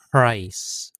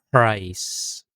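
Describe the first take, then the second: Both takes have the same delivery.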